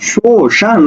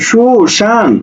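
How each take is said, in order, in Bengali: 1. প্রথম অক্ষরে 'u' স্বরধ্বনি আছে। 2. প্রথম অক্ষরে 'u' স্বরধ্বনি আছে।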